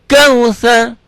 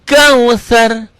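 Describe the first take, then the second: No difference in how they are said.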